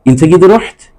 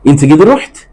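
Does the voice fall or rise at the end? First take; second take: rise; rise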